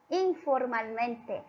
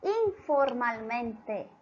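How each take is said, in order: First: Slow repeat. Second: Slow emphasis. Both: Shown as a demonstration. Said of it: "Ella nos habla".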